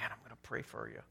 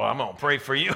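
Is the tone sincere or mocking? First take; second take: sincere; mocking. First: It sounds sincere and caring. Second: It sounds mocking and condescending.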